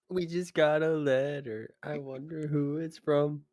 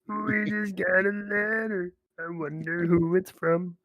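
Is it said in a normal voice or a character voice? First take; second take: normal voice; character voice. First: It is said in a normal voice. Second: It is said in Goopy's put-on voice.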